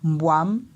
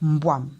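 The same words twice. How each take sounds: First: The pitch rises on the final vowel. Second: The pitch falls on the final vowel. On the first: It means luck. "on monte et on descend, on a un ton montant" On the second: It means snake. "on descend avec l'intonation au niveau du A"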